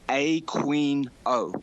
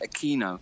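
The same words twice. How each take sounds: First: The middle syllable sounds like 'kween'. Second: The middle syllable sounds like 'kee'. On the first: "He pronounces his own name Aquino" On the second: "the South American pronunciation"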